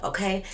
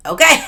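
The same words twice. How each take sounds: First: Said in the usual way. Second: High, loud questioning okay; loud rising okay. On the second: Real, not acted. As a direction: belt out okay with a rise.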